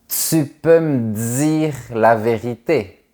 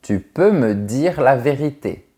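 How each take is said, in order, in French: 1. Un petit sifflement s ou z suit le t et le d. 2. Des t et d simples, sans sifflement après. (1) "Au Québec, ça devient" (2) "en France, on dit"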